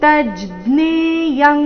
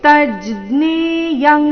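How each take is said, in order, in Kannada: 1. ಈ ಸಂಯುಕ್ತಾಕ್ಷರ 'jna' ರೀತಿ ಉಚ್ಚರಿಸಲಾಗುತ್ತದೆ. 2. ಈ ಸಂಯುಕ್ತಾಕ್ಷರ 'jna' ರೀತಿ ಉಚ್ಚರಿಸಲಾಗುತ್ತದೆ.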